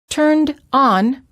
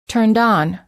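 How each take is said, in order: First: The words are said as two separate words. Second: The final d runs into the next vowel.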